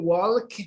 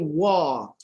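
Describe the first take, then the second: First: The L sound is pronounced in the word. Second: The L sound is silent in the word. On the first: The speaker calls it wrong. "We don't say walk" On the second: The speaker calls it right. "we have L there. But Ashraf, we don't pronounce it"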